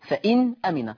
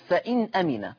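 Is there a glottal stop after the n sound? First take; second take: Yes; Yes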